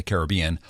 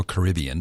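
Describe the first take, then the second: First: "Caribbean" as ka-ruh-BEE-un; Caribbean pronunciation variant. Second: "Caribbean" as kuh-RIB-ee-un; Caribbean pronunciation variant. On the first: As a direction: stress the third syllable of "Caribbean", BEE. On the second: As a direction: stress the second syllable of "Caribbean", RIB. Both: Shown as a demonstration. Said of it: "depending on how you wanna announce it".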